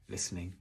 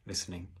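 No difference in how they are said.

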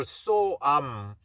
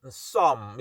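First: So am as two distinct words; so, then am, each sounded fully; unmerged so am; separate words. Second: So am run together into one syllable like some; so am squashed to sound like some; quick merged form. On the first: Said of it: "이걸 빨리 발음하면". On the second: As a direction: say so am fast, as one word. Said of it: "이걸 빨리 발음하면 some 이렇게". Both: Shown as a demonstration.

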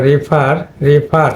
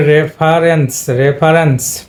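First: রিফার as ree-far, ee in the first syllable; verb pronunciation. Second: রেফারেন্স as ref-a-rens, short e first; noun pronunciation. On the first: Teacher showing students the verb, ree-far for রিফার. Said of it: "দুইটা কিন্তু প্রোনাউন্সিয়েশনটা different হয়ে গেছে". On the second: Teacher showing students the noun with suffix, short-e ref in রেফারেন্স. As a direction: say রেফারেন্স with e, not ee, in the first syllable. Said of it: "এখানে কিন্তু একার". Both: Shown as a demonstration.

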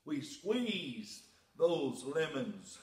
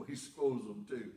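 First: Squeezed said slowly and deliberately as the proper word; careful correction. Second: Squoze said with a laugh, owning the made-up word; playful wrong word. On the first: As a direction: spell out squeezed, slow and precise, correcting yourself. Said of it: "squoze, squeezed". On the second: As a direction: squoze tossed off cheekily, a touch of laughter. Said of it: "squoze, if that's a word". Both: Shown as a demonstration.

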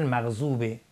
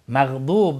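First: مغضوبه with a plain z; dad as z. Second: مغضوب with a heavy d-like dad; loud, emphatic dad in مغضوب; correct dad. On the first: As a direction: show the mistaken z in مغضوبه. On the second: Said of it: "ضاد اگر درست تلفظ نکنیم". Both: Shown as a demonstration.

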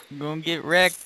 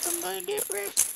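First: Said in the usual way. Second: Very high squeaky panic. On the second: Acted. Repeats the line in new voice.

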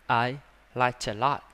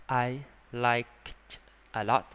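First: Slow I liked a lot, the k of liked held and unreleased; held final k. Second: Slow I liked a lot with every final k and t released; full final k and t. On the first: Teacher demonstrating the held final k in linked speech. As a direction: stop the breath on the k, linking liked into a. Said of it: "cái này chặn lại thôi, chặn hơi thôi". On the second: Teacher showing the wrong way, every ending released. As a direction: spell out each ending of liked slowly. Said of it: "Kỳ không? Thấy không?". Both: Shown as a demonstration.

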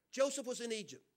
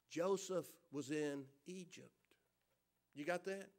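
First: Said in the usual way. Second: Slow, hushed emphasis. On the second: Acted. Preacher stressing where Joseph was, hushed and slow. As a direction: drop low and soft, drawn out. Repeated key line for emphasis.

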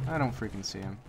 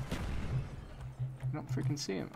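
First: Said in the usual way. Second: Slow, soft whisper; tense whisper while hunting. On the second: Real, not acted. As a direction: hush it as if the enemy could hear. Repeats while searching for enemy.

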